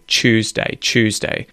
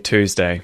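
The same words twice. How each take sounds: First: It begins with a 'ch' sound, like chew. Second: It begins with a plain 't' sound.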